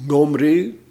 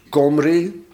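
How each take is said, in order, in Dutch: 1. De naam begint met een zachte keelklank. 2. De naam begint met een harde k-klank. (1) "als hij zacht wordt uitgesproken" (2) "als hij hard wordt uitgesproken"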